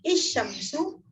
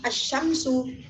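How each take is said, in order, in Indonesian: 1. Kata asyamsu diawali vokal i. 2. Kata asyamsu diawali vokal a. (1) "tidak bisa dibaca I" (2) "A berbunyi vokal A"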